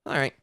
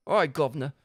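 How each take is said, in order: First: Said in the usual way. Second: "All right, Governor" in a lightly Cockney voice; mild Cockney greeting; Cockney accent. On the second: Shown as a demonstration. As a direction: greet him like a London cabbie. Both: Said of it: "now I can actually do this accent".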